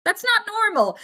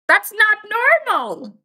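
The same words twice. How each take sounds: First: "not" high, level stays moderate; stress on not. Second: "not" louder and higher, then a pause before "normal"; stress on not. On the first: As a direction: lift "not" high in one phrase. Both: Real, not acted.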